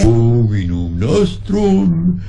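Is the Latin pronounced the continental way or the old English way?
continental. The Latin is said with continental vowels, sentimentally. "the master spoke in the continental pronunciation"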